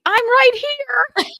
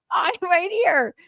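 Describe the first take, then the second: First: Slow, high, loud mock cry of I'm right here; hammed-up shout. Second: A touch higher, lightly mocking repeat; lighter mimic. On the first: Daughter mimics Zoe bursting onto stage, hammed-up shout. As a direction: belt it out like a stunned star grabbing the mic. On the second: Daughter repeats Zoe's line, lightly mocking. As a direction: toss the line off as a smaller echo.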